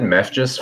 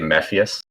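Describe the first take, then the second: First: The name sounds like 'meth juice'. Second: The name sounds like 'mef-ee-us'. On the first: This is how the speaker used to say it. The speaker calls it wrong. "I always said meth just for the longest time" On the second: This is how others in the scene say it. The speaker calls it right. "they all say Mephius"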